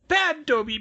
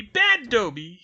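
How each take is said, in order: First: Very high, loud elf cry of self-punishment; shouted. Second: Very high, loud elf cry, rising at the end; shouted. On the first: House elf scolds himself, squeaky and loud. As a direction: yell it at yourself in shame. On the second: House elf scolds himself again, squeaky and loud. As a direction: yell it again, pleading. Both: A narrator's reading. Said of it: "he shouted".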